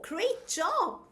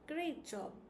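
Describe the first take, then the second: First: It is said warmly, with enthusiasm. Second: It is said flatly, without enthusiasm. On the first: The praise seems sincere. The speaker calls it right. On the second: The praise does not seem sincere. The speaker calls it wrong.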